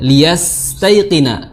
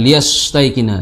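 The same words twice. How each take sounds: First: The s sound is light and soft. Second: The s sound is heavy and hard. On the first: The speaker calls it right. "ringan mengucapkannya" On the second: The speaker calls it wrong.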